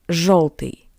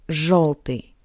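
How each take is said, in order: Both takes have the same delivery.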